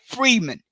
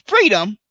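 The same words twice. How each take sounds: First: "freeman" for freedom, ending in -man; unclear old-time pronunciation. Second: Said in the usual way. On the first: Shown as a demonstration. Explaining how people back then said freedom, "freeman" as an unclear pronunciation. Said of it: "they didn't pronounce things in a clear pronunciation". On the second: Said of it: "when they were pronouncing the word free".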